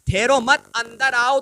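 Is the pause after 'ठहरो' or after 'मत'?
after मत. The pause comes right after 'मत'.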